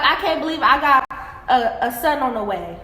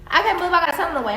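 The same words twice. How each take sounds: First: Ex's line, said at an easy pace; just repeat what he said, no spin; quoting the ex. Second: Rattled off quickly, mocking his words; fast mocking repeat. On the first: Retold or imitated. Woman quoting her ex about his new baby, plain retelling. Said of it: "He was like". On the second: Woman mocking her ex's baby announcement, fast and mocking. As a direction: rush through it like you're sick of hearing it.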